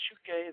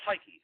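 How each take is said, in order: First: The word is said with a Greek pronunciation. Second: The word is said with an English pronunciation. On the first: "In the Greek pronunciation, you say suke" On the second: "but that's psyche"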